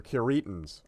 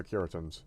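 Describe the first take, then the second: First: Curitans said as kuh-REE-tans; Curitans with a reduced first syllable, kuh-REE-tans; second-syllable stress. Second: Curitans said as KYUR-ih-tans; Curitans with the stress up front; first-syllable stress. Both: Shown as a demonstration. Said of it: "I can never figure out if it's Curitans or Curitans".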